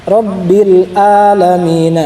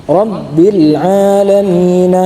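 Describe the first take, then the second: No difference in how they are said.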